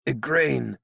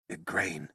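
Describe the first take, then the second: First: Startled cry. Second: Soft, dismayed naming; stunned murmur. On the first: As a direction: call out to her, shaken. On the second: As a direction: breathe her name in disbelief. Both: Acted. Merlin calls her name.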